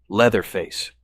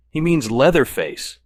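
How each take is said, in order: First: Said in the usual way. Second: Slow, higher, louder clenched-teeth correction; irritated man corrects a friend through clenched teeth. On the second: A narrator's reading. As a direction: force it out through gritted teeth. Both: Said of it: "teeth tightly clenched".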